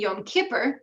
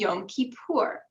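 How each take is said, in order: First: It uses the older Yiddish-influenced syllable pattern. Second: It uses the Israeli Hebrew-like syllable pattern. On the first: "instead of saying Yom Kippur" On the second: "We also have influences from Israeli Hebrew in pronunciation"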